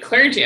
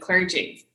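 First: The word is said more loudly. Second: The word is said at normal volume.

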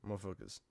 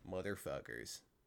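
First: The word is said fast. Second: The word is said at normal speed.

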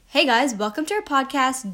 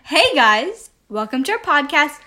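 First: It is said with toned-down enthusiasm. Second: It is said with high enthusiasm.

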